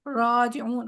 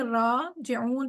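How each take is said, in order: First: The first vowel sounds like o. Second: The first vowel sounds like open aa. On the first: The speaker calls it wrong. "वो नहीं पढ़ेंगे" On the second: The speaker calls it right. "अलिफ की आवाज में राजिऊन पढ़ेंगे"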